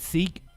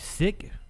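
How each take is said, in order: First: The word has a long vowel, like 'seek'. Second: The word has a short vowel, like 'sick'. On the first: The speaker calls it wrong. "I've been saying it wrong" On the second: The speaker calls it right.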